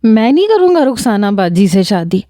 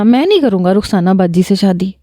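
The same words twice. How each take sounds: First: Tearful refusal. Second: Tired tearful repeat. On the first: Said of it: "رونا پیٹنا مچا دے گا". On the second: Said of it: "اپنے آنسو صاف کرتے ہوئے". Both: Retold or imitated.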